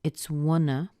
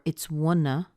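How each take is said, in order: First: The V sound at the end is dropped. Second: The V sound at the end is dropped.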